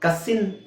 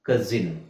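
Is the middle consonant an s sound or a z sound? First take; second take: s sound; z sound. First: The middle consonant is a hissing s sound. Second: The middle consonant is a buzzing z sound. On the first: The speaker calls it wrong. "ಕಸಿನ್ ಅಲ್ಲ" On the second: The speaker calls it right. "ಕಜಿನ್ ಕಜಿನ್"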